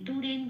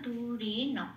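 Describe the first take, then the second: First: The final n is said with no vowel. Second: The final syllable is a full na. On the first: The speaker calls it wrong. "দূরেন বলতে পারবো না" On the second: The speaker calls it right. "দূরে ন এরকম"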